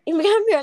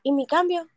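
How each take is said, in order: First: Loud, high, pushy repeat of "¿Y mi cambio?"; insistent demand. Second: Demanding change. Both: Retold or imitated. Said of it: "le empezó a decir".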